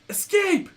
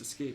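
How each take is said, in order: First: It is said excitedly, like an exclamation. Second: It is said flatly, without excitement.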